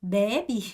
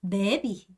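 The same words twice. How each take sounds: Both takes have the same delivery.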